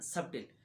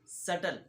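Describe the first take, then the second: First: The word is said with a b sound. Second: The word is said without any b sound. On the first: The speaker calls it wrong. "दोनों पढ़ना गलत है" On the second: The speaker calls it right. "सटल not सबटिल, because बी is silent"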